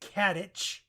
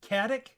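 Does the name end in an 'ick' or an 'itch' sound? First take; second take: itch; ick. First: The name ends with a soft 'itch' sound. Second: The name ends with a hard 'ick' sound. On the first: The speaker calls it right. "I've been told that's Kadich" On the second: The speaker calls it wrong. "I'm going to continue to screw that one up"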